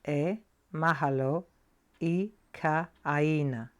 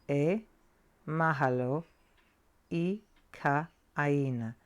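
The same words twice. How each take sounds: Both takes have the same delivery.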